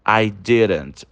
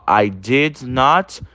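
First: "didn't" said as one quick word; contracted form. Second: "did not" said slowly as two full words; full form. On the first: Teacher giving students the quick contracted form. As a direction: snap it into "I didn't". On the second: Teacher contrasting the full form for students, slowly. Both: Shown as a demonstration. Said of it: "Então, ó".

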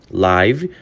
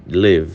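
First: "live" said lajv, rhyming with five; "live" meaning ao vivo, lajv. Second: "live." said lev, short vowel like give; "live." meaning morar, short i. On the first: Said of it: "pode ser ao vivo". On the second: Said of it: "pode ser morar também". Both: Shown as a demonstration.

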